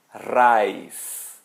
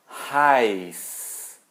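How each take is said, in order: First: Raiz with a German R, louder. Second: Raiz with a breathy H at the start; with an H sound. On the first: Teacher showing the correct German R. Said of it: "Outro exemplo". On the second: Teacher showing the H version for contrast. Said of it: "Aí é quente". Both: Shown as a demonstration.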